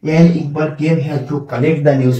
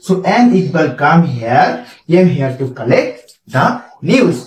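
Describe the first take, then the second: First: Slow sentence with the news, the common mistake; wrong version, slow. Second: Slow dictated sentence without an article before news; correct version, slow. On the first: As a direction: show the error students make. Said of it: "আমরা কিন্তু অনেক সময় টানে বলে ফেলাই". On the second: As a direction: read the right version carefully. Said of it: "collector আগে কিন্তু দি হবে না". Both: Shown as a demonstration.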